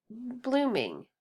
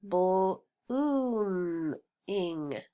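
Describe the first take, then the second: First: Said in the usual way. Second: "bl-, oom, ing" in three separate chunks; sounded out. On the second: Shown as a demonstration.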